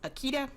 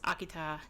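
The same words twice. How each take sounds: First: The word is said the American way. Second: The word is said a non-American way.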